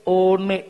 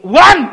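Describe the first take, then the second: First: "one" as "oh-neh", two syllables; misread by spelling. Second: "one" as one shouted syllable, "wan"; exasperated correction. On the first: Child reading O N E, "one" misread as "oh-neh". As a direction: sound out "one" Indonesian-style, loudly. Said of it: "baca nak O N E". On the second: Father correcting child's reading, shouted English "one". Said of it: "gimana sih?". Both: Retold or imitated.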